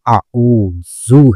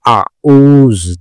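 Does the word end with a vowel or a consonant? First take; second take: vowel; consonant. First: The word ends with a short final u vowel. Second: The word ends on a consonant, with no final vowel. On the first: The speaker calls it right. "बल्कि आऊजू है" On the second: The speaker calls it wrong. "ये आऊज नहीं है"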